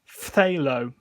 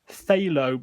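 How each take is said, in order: First: It starts with F and TH close together. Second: It starts with a plain TH sound, no F. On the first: The speaker calls it right. "it's actually pronounced phthalo. So it's an F and then a T H very close together" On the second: The speaker calls it wrong. "a lot of people pronounce that"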